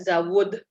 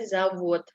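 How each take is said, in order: First: The word ends with a d sound. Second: The word ends with a t sound. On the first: The speaker calls it wrong. "tulisannya D, tapi kita bacanya bukan zawod" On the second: The speaker calls it right. "D berubah menjadi T"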